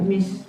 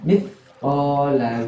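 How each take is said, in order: First: The word begins with an s sound. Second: The word begins with a th sound. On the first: The speaker calls it wrong. "bukan mis" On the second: The speaker calls it right. "Ini bacanya mithqala dzarratin"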